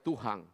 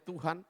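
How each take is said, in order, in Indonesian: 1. Kata ini berakhir dengan bunyi ng tambahan. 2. Kata ini berakhir dengan bunyi n biasa. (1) "mereka percaya Tuhan. Karena ada G-nya di belakang" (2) "Orang Makassar tidak percaya Tuhan"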